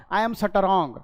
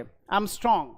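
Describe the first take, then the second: First: "strong" broken into "sa-ta-rong"; wrong pronunciation demo. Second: "strong" as one syllable, ending quickly; quick clean cluster. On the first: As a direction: add vowels inside the cluster of "strong". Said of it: "okay, not". ("strong" को "सटरॉन्ग" बोलें) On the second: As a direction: run S-T-R together in "strong". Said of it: "एकदम तेजी से खत्म होना चाहिए". ("strong" में स आधा, झट से खत्म) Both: Shown as a demonstration.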